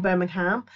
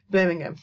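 First: Birmingham with a full ham ending, said the American way. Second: Birmingham in the local way, with a short "um" ending. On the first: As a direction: say Birmingham the way people in the US say it. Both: Shown as a demonstration. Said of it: "the original Birmingham".

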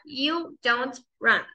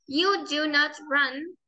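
First: "You don't run" slow, "don't" one syllable; short form for the class. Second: "You do not run" slow, each word separate; long form for the class. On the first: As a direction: merge do and not into "don't". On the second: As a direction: give "do" and "not" their own beats. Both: Shown as a demonstration.

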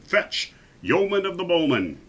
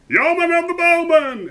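First: Higher-pitched royal summons; commanding king. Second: Very high, loud call; echoing crowd shout. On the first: King calling for his best archer, commanding. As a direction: summon him grandly, as a king. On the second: Lords echoing the king's summons, high shout. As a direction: shout it high like a whole court. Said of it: "echoed the lords and noblemen". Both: A narrator's reading.

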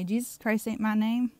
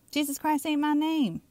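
First: Said in the usual way. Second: "Jesus Christ ain't my name" pitched high, falling at the end; emphatic rebuke. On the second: Acted. Preacher voices the Messiah's rejection, "Jesus Christ ain't my name" emphatic and high.

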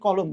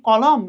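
First: "কলম" with the second vowel rounded like ও; closed o vowel. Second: "কলম" with an open অ in both syllables; open second vowel. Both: Shown as a demonstration. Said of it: "মানে ও এর মতো হয়".

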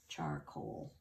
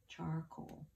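First: Soft lowered "Charcoal". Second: Said in the usual way. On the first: Shown as a demonstration. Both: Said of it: "final word said".

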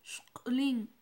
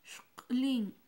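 First: Shklin whispered, sh kl then in; whispered Mam word. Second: Shklin said aloud and clear, sh kl then in; voiced Mam word. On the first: Teacher whispers the Mam word for light blue to the class. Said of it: "Otra vez". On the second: Teacher says the Mam word for light blue aloud to the class. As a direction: say Shklin out loud and crisp. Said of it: "Una vez más". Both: Shown as a demonstration.

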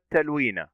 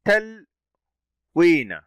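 First: Said in the usual way. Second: "تلوين" very slowly, split as تل، then وين; syllable by syllable. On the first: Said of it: "نأخذ كلمة تلوين". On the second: Shown as a demonstration. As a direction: stop on the L in "تلوين", then stretch the long ee. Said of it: "التاء فتحة". («تلوين» مقطعة ببطء شديد: تل - وينَ)

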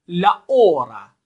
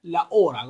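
First: "la hora" drawn out slowly, loud, with a silent h, "la ora"; slow model pronunciation. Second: Said in the usual way. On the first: Shown as a demonstration. Teacher models a word for students: slow, loud "la hora". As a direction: say "la hora" slow and loud for learners to repeat, h unsounded. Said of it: "تکرار بفرمایید به دنبال بنده". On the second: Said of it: "گفتیم که اچ تلفظ نمیشه".

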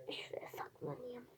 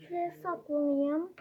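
First: Whisper. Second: Said in the usual way. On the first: Pretend. Hiding spot, repeated in secret.

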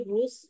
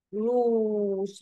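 First: रूस with a short, quick u; रूस said as "rus", the u not held; short vowel. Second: रूस very slow, oo held long; रूस as a dictation word with a drawn-out oo; long vowel. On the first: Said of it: "short ऊ का sound आ रहा है". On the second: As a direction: stretch the oo in रूस right out. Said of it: "long ऊ का sound आ रहा है". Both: Shown as a demonstration.

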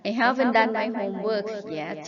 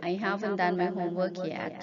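First: Haven't stressed, read very slowly; slow model reading. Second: Said in the usual way. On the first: Shown as a demonstration. Teacher reading a model sentence for students to repeat, slowly. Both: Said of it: "หัดอ่านตามประโยคเหล่านี้".

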